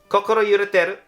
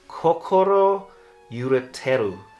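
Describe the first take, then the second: First: It is said with a Japanese accent. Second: It is said with a plain English accent.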